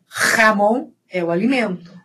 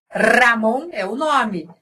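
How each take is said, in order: First: "Ramon" said as "jamón", with a throaty h-like j. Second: "Ramon" with a rolled, trilled r. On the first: Teacher contrasting the food with the name, throaty j. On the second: Teacher contrasting the name with the food, trilled r. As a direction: roll the r of "Ramon". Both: Shown as a demonstration.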